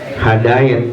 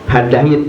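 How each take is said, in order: First: The ai sound does not lean toward i. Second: The ai sound leans toward i. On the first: The speaker calls it wrong. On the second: The speaker calls it right. "ia itu cenderung kepada i"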